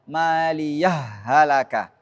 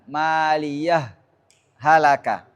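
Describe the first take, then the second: First: The two words are merged without a stop. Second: A brief stop comes after maliyah. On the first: "Boleh juga dibaca idgham" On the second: "itu bisa sakta di situ"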